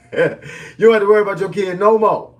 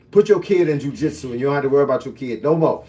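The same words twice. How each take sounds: First: Higher and louder, laughing through the repeat; gleeful laughing punchline. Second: Said in the usual way. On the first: Real, not acted. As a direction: crack up as you say it again.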